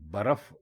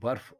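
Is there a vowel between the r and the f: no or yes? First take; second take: yes; no. First: A short a vowel comes between r and f. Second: The r and f are joined with no vowel. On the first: The speaker calls it wrong. "बर्फ गलत है" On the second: The speaker calls it right. "इसको बर्फ कहेंगे तो बर्फ दुरुस्त है"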